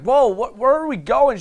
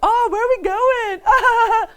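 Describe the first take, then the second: First: It sounds genuinely worried and alarmed. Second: It sounds playful, with mock resistance.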